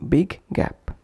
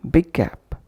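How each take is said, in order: No difference in how they are said.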